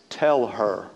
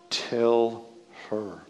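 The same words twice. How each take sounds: First: Lower, grumbling demand, lightly voiced; a hint of a fed-up hostess; Martha's low demand. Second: Lightly voiced hostess, fading to nothing; Martha's voice again. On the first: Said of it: "you can hear her voice". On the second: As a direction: lower and softer, trailing away. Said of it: "Can't you hear it?".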